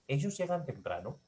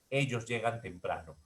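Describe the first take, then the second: First: The pitch rises at the end. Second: The pitch falls at the end. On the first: It is a question. "yo puedo convertirlo en un enunciado ascendente" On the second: It is a statement. "que es un enunciado descendente"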